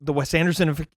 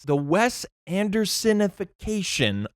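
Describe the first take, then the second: First: The phrase is said fast after stumbling attempts. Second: The phrase is said slowly and carefully. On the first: The speaker calls it wrong. "If I tried reading that at a normal pace" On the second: The speaker calls it right. "That's the best I've been able to say it so far"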